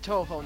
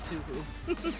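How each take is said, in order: First: The first syllable sounds like 'toe'. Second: The first syllable sounds like 'too'. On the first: The speaker calls it right. "it's pronounced Toho" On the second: The speaker calls it wrong. "not Tuhu"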